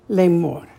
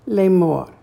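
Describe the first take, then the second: Both takes have the same delivery.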